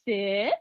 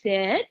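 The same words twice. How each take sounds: First: It is said low-pitched and firm. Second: It is said high-pitched and excited. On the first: The request is non-negotiable. "I can ground out my vocal tone and my inflection and my pitch" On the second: The request can be negotiated. "I can create a bunch of excitement if I talk like this"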